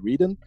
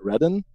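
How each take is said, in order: First: It is said to rhyme with Eden. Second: It is said with an English pronunciation. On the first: It follows the old name Eden. "Because we are coming from Eden, it would be logical to say Reden" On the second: It is how English speakers would say it. "but in American or English, it would be Redden"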